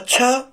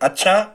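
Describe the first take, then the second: First: It is said quickly with an exclamatory tune. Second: It is said with a plain, neutral tune. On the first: The speaker is surprised that something happened. "बहुत जल्दी बोलेंगे अच्छा, कोई घटना घट गई, विस्मयादि बोधक आश्चर्य" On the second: The speaker simply acknowledges something. "ये सामान्य अच्छा था"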